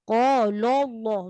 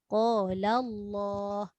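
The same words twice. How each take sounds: First: The l in qala sounds heavy and thick. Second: The l in qala sounds light and thin. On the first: The speaker calls it wrong. "Tapi ada juga yang baca tertebal... Salah" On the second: The speaker calls it right. "Tebalnya pada kalimah Allah"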